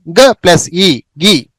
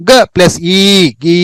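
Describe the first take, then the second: First: గి with a short, quick i; short vowel. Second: గీ with a drawn-out ee; long vowel. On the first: Teacher leading learners through గి, short vowel. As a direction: cut the ఈ sound short in గి. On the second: Teacher leading learners through గీ, long vowel. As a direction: slowly stretch ఈ and గీ. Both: Shown as a demonstration. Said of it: "మీరు కూడా పలుకుతూ నిదానంగా వెళ్ళండి".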